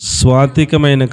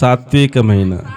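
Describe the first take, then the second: First: The v sound comes right after the first s. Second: The v sound comes in the middle, after t. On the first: The speaker calls it wrong. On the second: The speaker calls it right.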